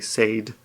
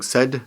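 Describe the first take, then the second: First: It is pronounced the way Japanese teachers say it. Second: It is pronounced the way native speakers say it. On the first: The speaker calls it wrong. "they say said" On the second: The speaker calls it right. "instead of saying said"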